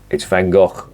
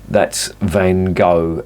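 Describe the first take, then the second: First: The name is said with a Flemish pronunciation. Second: The name is said with an American pronunciation. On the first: The speaker calls it right. "It's Van Gogh. It's Flemish" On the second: The speaker calls it wrong. "if you're an American, that's Van Gogh, as you lot pronounce it"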